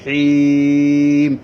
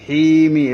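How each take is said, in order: First: The long vowel is stretched, ending in a stop. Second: The long vowel is short, running into -mi. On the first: The reader stops at this word. "তিন আলিফ টানতে হয়" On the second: The reader continues without stopping. "এক আলিফ টানতে হতো"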